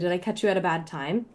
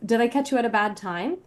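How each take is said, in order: First: The voice is at a slightly lower pitch. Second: The voice is at a higher, usual pitch.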